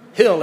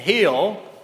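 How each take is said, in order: First: The name is said with a Midwestern accent. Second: The name is said with a Southern accent. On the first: "Hill in the Midwest" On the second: "Hill in Mississippi"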